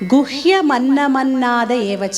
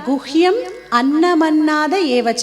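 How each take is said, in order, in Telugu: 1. guhyam విరామం లేకుండా నేరుగా annam లోకి కలుస్తుంది. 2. guhyam చివర m ఉంటుంది, అది annam నుండి విడిగా నిలుస్తుంది. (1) "కలిపి లైనంతా చదివినప్పుడు" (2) "విడదీశాం మనం"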